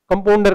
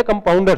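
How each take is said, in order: First: "कंपाउंडर" as "kampondar", O replacing "au"; mispronounced compounder. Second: Said in the usual way. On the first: Shown as a demonstration. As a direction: flatten "au" to O in "कंपाउंडर". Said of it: "कंपाउंडर कहते हैं". ("कंपाउंडर" में आउ की जगह ओ) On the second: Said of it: "जबकि है कंपाउंडर शब्द".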